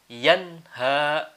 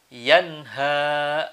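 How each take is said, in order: The two takes are said the same way.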